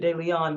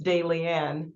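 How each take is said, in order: First: The name is given a French-sounding pronunciation. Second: The name is given a plain English pronunciation. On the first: The speaker calls it wrong. "you've made me French with De Leon" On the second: The speaker calls it right. "it's really just De Leon"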